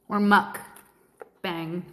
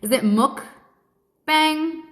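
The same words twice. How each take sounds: First: Slow, lower "mukbang" said as the alternative; "mukbang" drawn out, lower, second option; pronunciation test. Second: Slow, higher "mukbang" with a rising question; pronunciation test. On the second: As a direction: try "mukbang" slowly, as a question. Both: Shown as a demonstration. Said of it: "Am I saying that right?".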